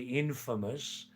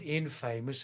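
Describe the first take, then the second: First: Infamous said IN-fa-mous, stress on the first syllable; infamous said the right way, first syllable strong; correct stress. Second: Infamous said as in-FAME-ous, stress on the middle; infamous mispronounced like famous with in- in front; wrong stress. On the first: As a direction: say infamous with the stress up front and a short middle. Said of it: "Actually, we say infamous". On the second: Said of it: "Actually, we say infamous, not infamous". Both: Shown as a demonstration.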